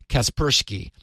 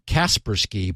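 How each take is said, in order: First: The stress is on the second syllable. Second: The stress is on the first syllable. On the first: The speaker calls it right. "putting the accent on the second syllable" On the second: The speaker calls it wrong. "I have been always saying Kaspersky"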